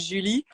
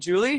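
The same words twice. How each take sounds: First: The name is said with a French pronunciation. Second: The name is said with an English pronunciation. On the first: "In French, we would say Julie" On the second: "That's the English version"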